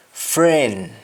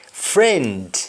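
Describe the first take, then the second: First: FRIEND as "fren", stopping at N; Jamaican pronunciation. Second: FRIEND with the final D sounded; English-style FRIEND, full "nd"; English pronunciation. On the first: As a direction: drop the D of FRIEND. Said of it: "You only stop at N". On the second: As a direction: finish FRIEND on a clear D. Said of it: "ends with N D in English". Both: Shown as a demonstration.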